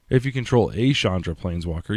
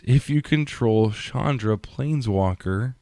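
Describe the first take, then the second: First: "a" said as a full "ay"; stress on "a". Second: Said in the usual way. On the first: Real, not acted. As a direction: correct it by leaning on the word "a". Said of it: "the Hound doesn't care what Chandra". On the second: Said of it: "the Outburst does not let you search for any Chandra".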